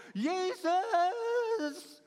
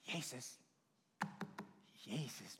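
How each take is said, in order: First: High, loud, drawn-out desperate call; cry from distress. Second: Soft, low, timid mock call; meek little call. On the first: Acted. Blind man calling Jesus out of his need, desperate cry. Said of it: "vanuit zijn nood". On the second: Preacher showing how the man surely didn't call, meek and soft. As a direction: barely call the name, far too quietly.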